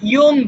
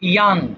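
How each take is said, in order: First: The vowel sounds like 'oh'. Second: The vowel sounds like 'ah'. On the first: The speaker calls it wrong. "আমরা অনেক সময় ইয়ং বলি" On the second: The speaker calls it right. "এটা আসলে ইয়াং হয়"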